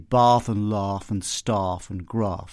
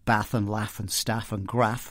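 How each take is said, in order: First: The words are said in a received pronunciation accent. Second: The words are said in a regional English accent. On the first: "what we call R P ... You've got rounded vowels ... you'd say" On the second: "unlike me, where I'd say"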